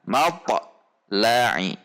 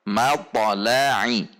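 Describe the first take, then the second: First: There is a short break inside the word. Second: The word flows on without any break. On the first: The speaker calls it wrong. "Contoh yang terjeda" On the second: The speaker calls it right. "tidak ada jeda"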